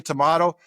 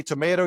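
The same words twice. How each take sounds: First: "tomato" said to-MAH-to; middle-vowel AH. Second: "tomato" said to-MAY-to; middle-vowel AY. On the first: Showing styles just differ, "tomato" as to-MAH-to. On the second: Showing styles just differ, "tomato" as to-MAY-to. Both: Shown as a demonstration. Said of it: "you say tomato".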